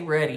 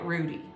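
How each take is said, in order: First: The word sounds like 'ruddy', a short vowel. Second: The word sounds like 'Rudy', a long vowel. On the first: This is the speaker's own usual way of saying it. "I always say ruddy" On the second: This is how someone else always said it. "she always called it Rudy"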